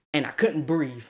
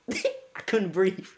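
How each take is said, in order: First: Said in the usual way. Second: Slow, laughing through it. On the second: Retold or imitated. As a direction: drag it out between laughs.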